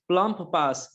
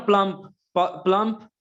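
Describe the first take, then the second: First: Said in the usual way. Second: plump said louder, its प punched; stress on first sound. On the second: Shown as a demonstration. Teacher punching प in plump for students. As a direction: hit the प of plump hard. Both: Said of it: "alliteration को बता रहा है plump और पास".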